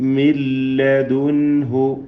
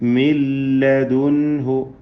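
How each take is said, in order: First: The n merges fully into a doubled l. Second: The n merges fully into a doubled l.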